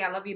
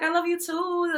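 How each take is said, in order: First: Said in the usual way. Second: High, sweet and cute. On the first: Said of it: "It took her a good ten seconds to even say". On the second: Retold or imitated. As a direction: coo it like a loving big sister. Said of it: "You even put on a sweet, cute little voice".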